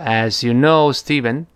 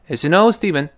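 First: The phrase is spoken slowly with a full vowel. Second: The phrase is spoken quickly with a reduced vowel. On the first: "说的比较慢" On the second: "如果语速特别快呢"

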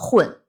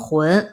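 First: The syllable is said with a falling tone. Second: The syllable is said with a rising tone. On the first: "4 声混" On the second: "2 声浑"

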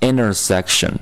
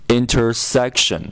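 First: The t after n is dropped, like inner. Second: The t after n is clearly pronounced.

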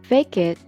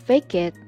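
No difference in how they are said.

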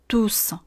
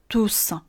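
No difference in how they are said.

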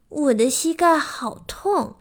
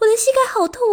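First: The sentence is spoken slowly. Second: The sentence is spoken quickly. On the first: The speaker calls it right. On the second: The speaker calls it wrong.

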